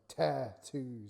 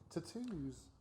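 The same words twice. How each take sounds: First: The A vowel is heavy and drawn out. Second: The A vowel is light and quick. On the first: "like you're stressing the A too much" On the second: "Tattoos just float"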